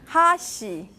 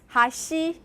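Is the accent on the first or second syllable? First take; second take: first; second. First: The accent falls on the first syllable. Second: The accent falls on the second syllable. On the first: It means chopsticks. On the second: It means bridge.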